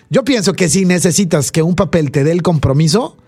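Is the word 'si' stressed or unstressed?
unstressed. The word 'si' is unstressed, meaning if.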